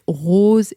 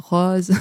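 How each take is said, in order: First: It is said with a northern French accent. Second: It is said with a southern French accent. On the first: "les gens qui sont pas de la du sud et qui disent pas, heu, qui disent rose" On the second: "et pas rose. Et nous, on dit rose"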